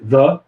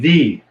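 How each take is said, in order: First: The word ends in a short 'uh' vowel. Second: The word ends in a clipped 'ee' vowel. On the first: A consonant sound comes next. "If you have a consonant, we say the door" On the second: A vowel sound comes next. "If you have a vowel, we say the"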